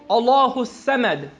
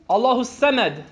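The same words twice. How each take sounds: The two takes are said the same way.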